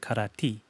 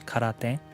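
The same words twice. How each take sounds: First: It is said in Okinawan pronunciation. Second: It is said in standard Japanese pronunciation. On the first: "in Okinawa it's um, karate" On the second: "in standard Japanese it's karate"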